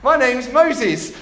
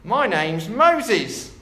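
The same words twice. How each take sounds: First: High, loud, slow parrot squawk. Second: Very slow, half-hearted parrot; a parrot voice that slips, drawn right out. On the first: Parrot introducing itself to the burglar, high loud squawk. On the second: Parrot introducing itself to the burglar, slow and lightly squawked. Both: Acted. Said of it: "squawked the bird".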